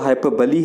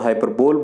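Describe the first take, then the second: First: It ends with a reduced 'buh-lee' sound. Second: It ends with a full 'bowl' sound. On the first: The speaker calls it right. "इसका जो correct pronunciation है वो हाइपरबली है" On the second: The speaker calls it wrong. "बहुत सारे लोग इसको हाइपरबोल बोलते हैं"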